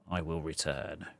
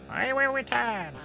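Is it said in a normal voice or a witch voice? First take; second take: normal voice; witch voice. First: It is said in a plain, normal voice. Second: It is said in a put-on witch voice.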